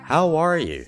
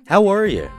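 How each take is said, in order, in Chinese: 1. 最后一个词是完整的 'you'。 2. 最后一个词弱化成了 'ya'。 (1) "这样的一种感觉。" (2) "或者更随意一点，把you 变成了ya。"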